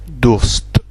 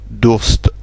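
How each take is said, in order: The two takes are said the same way.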